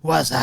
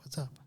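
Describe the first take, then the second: First: It is said boldly and loudly. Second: It is said subtly and quietly.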